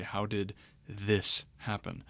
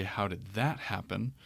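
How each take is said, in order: First: "this" stressed, said slowly as an example; slow down and lean on "this". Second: "that" stressed, set against the "this" version. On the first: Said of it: "I would say". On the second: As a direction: lean on "that" to mark the contrast. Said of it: "But if I say". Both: Shown as a demonstration.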